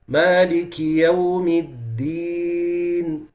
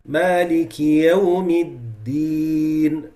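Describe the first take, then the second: No difference in how they are said.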